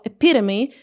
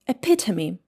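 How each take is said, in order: First: It is said with an American English accent. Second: It is said with a British English accent.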